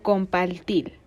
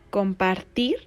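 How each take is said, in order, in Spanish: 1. Los sonidos r se pronuncian como una L. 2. Los sonidos r se pronuncian como una R vibrante o simple.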